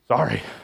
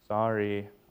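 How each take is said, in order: First: It sounds grudging and insincere. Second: It sounds sincere and meant.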